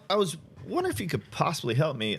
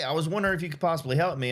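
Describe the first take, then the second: First: It is said slowly, with hesitations and varied pitch. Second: It is said fast and flat, without pitch variation. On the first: The speaker calls it right. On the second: The speaker calls it wrong.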